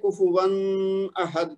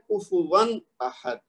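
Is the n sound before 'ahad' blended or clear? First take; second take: blended; clear. First: The n sound is blended into the next word. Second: The n sound is pronounced clearly before 'ahad'. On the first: The speaker calls it wrong. "तो ये गलत है" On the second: The speaker calls it right. "तनवीन के बाद हमजा है तो इसको ज़हर करके पढ़ना"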